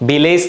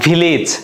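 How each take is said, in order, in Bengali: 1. শেষ সিলেবলে 'eh' স্বরধ্বনি আছে। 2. শেষ সিলেবলে ছোট 'ih' স্বরধ্বনি আছে। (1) "ভিলেজ না" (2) "রস্বইকার দিয়ে উচ্চারণ করবা"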